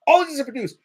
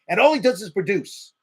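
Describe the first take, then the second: First: "All he does is produce" repeated higher and louder, hitting "All"; emphatic repeat. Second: Said in the usual way. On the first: Real, not acted. Host ranting on air about the player's contract, with "All" stressed high and loud.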